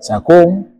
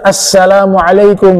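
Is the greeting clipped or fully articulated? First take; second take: clipped; fully articulated. First: The greeting is clipped and shortened. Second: The greeting is fully and clearly articulated. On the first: The speaker calls it wrong. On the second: The speaker calls it right.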